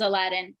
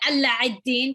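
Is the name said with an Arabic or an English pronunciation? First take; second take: English; Arabic. First: The name is said with a plain English pronunciation. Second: The name is said with an Arabic pronunciation.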